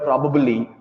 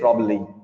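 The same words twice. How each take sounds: First: Every syllable of the word is said. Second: A syllable of the word is dropped. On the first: The speaker calls it right. "You must ensure you are saying each word fully and clearly" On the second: The speaker calls it wrong. "you shouldn't say probably, as that's incorrect"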